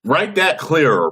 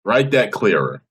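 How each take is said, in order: First: Exasperated command. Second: That hit hard, then clearer; stress on that. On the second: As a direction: punch that in Write that clearer. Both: Real, not acted.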